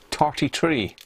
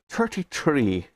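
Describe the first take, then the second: First: It is said in a put-on Irish accent. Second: It is said in the speaker's normal accent.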